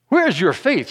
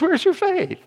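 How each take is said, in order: First: It is said in an impatient, exasperated tone. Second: It is said in an incredulous, disbelieving tone. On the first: The asker is annoyed with the listeners. "Was he impatient?" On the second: The asker can hardly believe the listeners doubt. "Or was he incredulous?"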